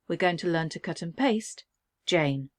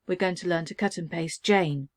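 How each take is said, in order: First: There is a pause before "Jane". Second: There is no pause before "Jane".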